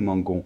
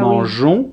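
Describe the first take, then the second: First: The g is pronounced as a hard g. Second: The g is pronounced like a zh sound. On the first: The speaker calls it wrong. "sinon ça ferait nous mangons" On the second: The speaker calls it right. "on est obligé de rajouter un E après le G"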